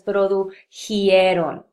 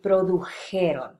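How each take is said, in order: First: An extra 'ee' sound comes before the ending. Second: No extra 'ee' sound comes before the ending. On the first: The speaker has generalized a rule from other verbs. The speaker calls it wrong. "It is very common in this region of the Southwest to hear it pronounced as" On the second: The speaker follows the standard grammar. The speaker calls it right. "grammatically it should be produjeron"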